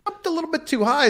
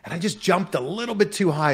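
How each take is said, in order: First: "jumped a little bit too high" shot up high and fast; rushed, high-pitched emphasis; high emphatic retelling. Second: Said in the usual way. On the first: Retold or imitated. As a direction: fire it off high and quick, stressing the mistake. Repeats the jump line.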